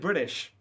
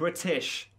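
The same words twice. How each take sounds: First: The word is said with an American-sounding pronunciation. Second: The word is said with a British-sounding pronunciation. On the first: The speaker calls it wrong. "you sound like an American saying it" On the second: The speaker calls it right. "supposed to be British"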